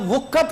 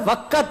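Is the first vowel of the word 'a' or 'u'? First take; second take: u; a. First: The first vowel is an 'u' sound. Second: The first vowel is an 'a' sound. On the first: The speaker calls it wrong. "ये वुक्कत गलत है" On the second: The speaker calls it right. "वाव के ऊपर जबर है"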